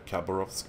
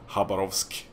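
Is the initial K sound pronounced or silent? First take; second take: pronounced; silent. First: The opening K sound is pronounced. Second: The opening K sound is silent. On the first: The speaker calls it wrong. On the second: The speaker calls it right.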